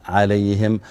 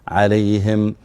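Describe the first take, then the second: Both takes have the same delivery.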